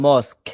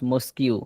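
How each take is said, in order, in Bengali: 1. শব্দটি সাধারণ 'k' ধ্বনি দিয়ে শেষ হয়। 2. শব্দটি একটি যুক্ত 'kyoo' ধ্বনি দিয়ে শেষ হয়। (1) "শব্দের উচ্চারণ হবে মস্ক" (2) "নট মস্কিউ"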